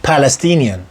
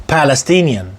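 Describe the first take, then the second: Both takes have the same delivery.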